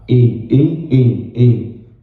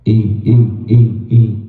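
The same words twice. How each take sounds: First: The voice sounds cleaner with less bass. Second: The voice sounds muffled with heavy bass. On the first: The speaker calls it right. "Pode perceber que já limpou um pouco o som" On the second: The speaker calls it wrong. "o meu microfone está abafado... Ele está com excesso de grave"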